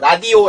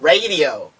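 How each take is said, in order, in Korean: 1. 세 음절의 박자가 모두 고릅니다. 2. 첫 음절이 가장 강하고, 둘째는 약하고, 셋째는 중간입니다. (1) "한국말로 하면" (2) "높은 산 하나 넘고 작은 거 다시 중간 산 넘은 게"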